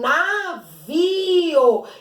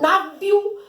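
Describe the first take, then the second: First: The i and o are in separate syllables. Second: The i and o are joined in one syllable. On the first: The speaker calls it right. "Não, esse aqui é um navio" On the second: The speaker calls it wrong. "Percebem que eu não falo navio"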